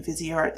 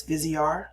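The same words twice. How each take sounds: First: Viseart with the final T sounded; Viseart, keeping the T on the end; T pronounced. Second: Viseart with the final T left silent; Viseart, dropping the T at the end. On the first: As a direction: say Viseart ending in a T. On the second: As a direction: say Viseart ending on an R sound, no T. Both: Shown as a demonstration. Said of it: "you don't pronounce the T".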